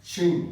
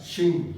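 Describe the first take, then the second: First: शिंग repeated louder with a clear falling tone; model pronunciation. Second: शिंग said in passing inside the sentence; Chinese word demo. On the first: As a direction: repeat शिंग on its own, louder, so students catch it. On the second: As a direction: give शिंग once as a run-in example. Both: Shown as a demonstration. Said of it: "शिंग का मतलब heart".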